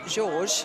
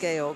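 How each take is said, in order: First: The name is pronounced the English way. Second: The name is pronounced a non-English way. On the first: This is how his father and grandfather were known. "a bit more like the English pronunciation of George" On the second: This is what he himself is called. "but he is Georg"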